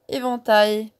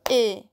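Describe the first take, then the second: First: Said in the usual way. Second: "Éventail" broken into é, ven, tail with pauses; découpage en syllabes. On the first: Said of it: "nous avons le mot éventail". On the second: Shown as a demonstration. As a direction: separate the three syllables of "Éventail". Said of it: "éventail a trois syllabes". (« Éventail » en trois syllabes séparées)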